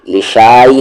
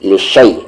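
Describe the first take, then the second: First: The vowel after sh is drawn out long. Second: The vowel after sh is kept short. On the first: The speaker calls it wrong. "लिशाई नहीं" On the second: The speaker calls it right. "अलिफ साइलेंट हुआ कंप्लीटली"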